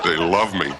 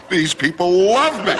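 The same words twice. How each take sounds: First: Said in the usual way. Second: Delighted. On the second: Acted. Preacher basking in applause.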